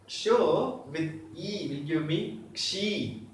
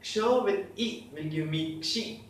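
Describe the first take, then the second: First: Slow repeat for learners. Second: Said in the usual way. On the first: Shown as a demonstration.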